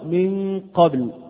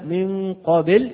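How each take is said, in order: First: The b ends with a short, clean bounce. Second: The b is followed by an added i-like vowel. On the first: The speaker calls it right. "والصواب من قبل هكذا" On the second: The speaker calls it wrong. "أما من قبل هكذا فهذا خطأ"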